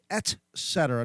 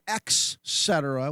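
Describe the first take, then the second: First: The first syllable is said as 'et'. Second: The first syllable is said as 'ex'. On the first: The speaker calls it right. "it's et cetera with a T" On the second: The speaker calls it wrong. "not ex cetera"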